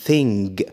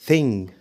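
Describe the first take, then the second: Both takes have the same delivery.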